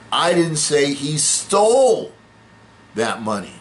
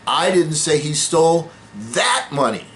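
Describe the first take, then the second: First: The word 'stole' carries the main stress. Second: The word 'that' carries the main stress. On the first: He got the money some other way. "No, he just borrowed it" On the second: He took different money. "No, he stole somebody else's money"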